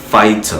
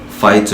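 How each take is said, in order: First: It has a British accent with a clear T. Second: It has a British accent with a clear T.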